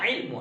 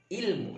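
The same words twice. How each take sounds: First: The word begins with a tight throaty ain sound. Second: The word begins with a plain glottal stop. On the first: This is the original Arabic form. "ilmu asalnya ilmu ain" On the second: This is the form borrowed into Indonesian. "ilmu dengan eh, sebutan hamzah"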